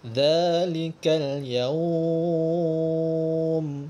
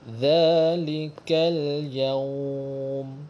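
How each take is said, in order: First: The final syllable is drawn out much longer. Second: The final syllable is lengthened only briefly. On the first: "kalau empat harakat lebih panjanglah" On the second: "itu kadar panjangnya dua harakat"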